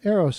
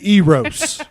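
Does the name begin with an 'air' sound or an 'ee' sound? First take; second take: air; ee. First: The name begins like the word 'arrow'. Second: The name begins with a long 'ee' sound. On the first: The speaker calls it right. "like a bow and arrow" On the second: The speaker calls it wrong. "Like I was a hard E"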